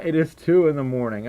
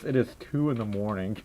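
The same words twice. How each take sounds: First: Said in the usual way. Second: Low, soft, offhand delivery; casual. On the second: Retold or imitated. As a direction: toss it off casually, quiet and low. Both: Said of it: "it's so casual about it".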